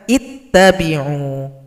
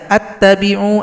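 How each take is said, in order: First: The word begins with an i vowel. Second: The word begins with an a vowel. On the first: The speaker calls it right. "Harus dibaca ittabi'u" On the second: The speaker calls it wrong. "Jangan dibaca attabi'u"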